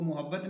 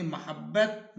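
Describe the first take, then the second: First: मोहब्बत with u in the first syllable, muhabbat; the common wrong form मोहब्बत, said muhabbat; wrong pronunciation. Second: मोहब्बत with a short a in the first syllable, mahabbat; teacher models मोहब्बत as mahabbat; correct pronunciation. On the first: (मोहब्बत का ग़लत तलफ़्फ़ुज़, पेश के साथ) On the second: (मोहब्बत ज़बर के साथ) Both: Shown as a demonstration. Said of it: "हम इसको मोहब्बत नहीं पढ़ेंगे".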